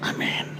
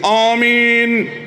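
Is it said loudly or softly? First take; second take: softly; loudly. First: It is said quietly and softly. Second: It is shouted loudly.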